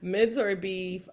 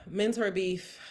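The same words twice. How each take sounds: First: Mentor beef announced slowly and louder, steady; composed restart. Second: Sighing the words through a laugh; teary laugh. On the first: Podcaster regains composure for next segment, slow announcement. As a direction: pull yourself together and announce it. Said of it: "Move on". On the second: Podcaster still emotional introduces next segment, teary laugh. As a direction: try to announce it but laugh it out. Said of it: "I don't know why that made me so emotional". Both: Real, not acted.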